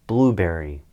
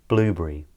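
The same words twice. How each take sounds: First: It is said in an American accent. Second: It is said in a British accent.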